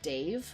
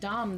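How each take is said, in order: First: The name is said to sound like 'Dave'. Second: The name is said to sound like 'Dom'. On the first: The speaker calls it right. "is pronounced Dave" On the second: The speaker calls it wrong. "I've been pronouncing it Dom this whole time"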